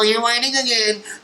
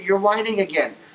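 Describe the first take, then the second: First: It is said in a whiny, nasal voice. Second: It is said in a plain, calm voice. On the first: The speaker calls it wrong. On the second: The speaker calls it right.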